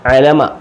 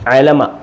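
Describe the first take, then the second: The two takes are said the same way.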